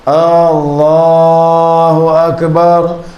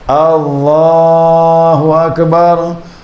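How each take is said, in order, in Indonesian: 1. Vokal pertama dipanjangkan. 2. Vokal pertama dipanjangkan.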